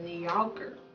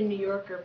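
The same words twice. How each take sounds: First: It is said with a Texan twang. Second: It is said in a standard accent.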